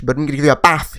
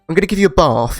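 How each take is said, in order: First: It is said in a Northern English accent. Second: It is said in a posh Southern accent.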